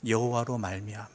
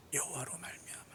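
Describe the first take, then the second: First: Said in the usual way. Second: Hushed, voiceless whisper; whispered repetition. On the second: Real, not acted. Preacher repeating the key verse to congregation, whispered. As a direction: whisper it for emphasis.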